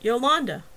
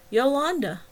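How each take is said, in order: First: Said in the usual way. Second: Patient repetition. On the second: A narrator's reading. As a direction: patiently repeat YOLANDA, a little higher and louder. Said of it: "Travis said patiently".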